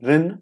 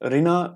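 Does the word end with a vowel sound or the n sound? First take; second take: n sound; vowel. First: The word ends on the n sound. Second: The word ends with a final vowel sound. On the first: The speaker calls it right. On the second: The speaker calls it wrong.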